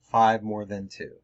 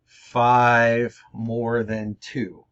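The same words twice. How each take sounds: First: Said in the usual way. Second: Five more than two said slowly, each word spaced out; slow, deliberate example. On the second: Shown as a demonstration. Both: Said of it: "the last is more than".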